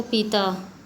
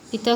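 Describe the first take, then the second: First: Long ee in पीता; lengthened vowel. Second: Said in the usual way. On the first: Shown as a demonstration. Teacher showing a vowel error, long-ee पीता. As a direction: stretch the first vowel of पीता. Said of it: "दीर्घ स्वर की भांति बोला जाता है". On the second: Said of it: "हास्य स्वर".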